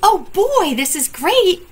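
It is said in a happy tone.

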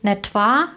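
The phrase is said with a regional pronunciation. It is a colloquial regional variant.

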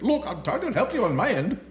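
It is said in an imitated Indian accent.

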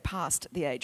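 It is said with an Australian accent.

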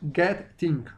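The middle t is a crisp, clear t. "En británico"

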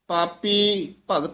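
There is a pause after the first word. The speaker calls it right. "ਪਾਪੀ ਪਦ ਤੇ ਵੀ ਰੁਕਣਾ ਹੈ"

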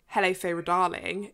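It is said in a posh British accent.

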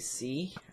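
The letter is pronounced 'zee'. "if you're American, then you say"

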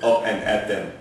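Said in a German accent, each syllable separate. The speaker calls it wrong. "but he's German, so he's like"

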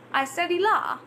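The vowel in law is an open 'ah'.

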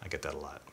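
The line is said in a flat, serious tone. The speaker means it earnestly. "Or if you said it very seriously"

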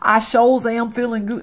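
It is said in a forced country accent.

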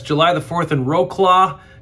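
The city name is said with American English sounds.

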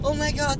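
It sounds like a happy surprise.

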